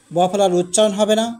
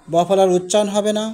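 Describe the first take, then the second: No difference in how they are said.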